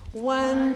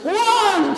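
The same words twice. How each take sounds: First: It is said in a bored way. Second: It is said like a church preacher.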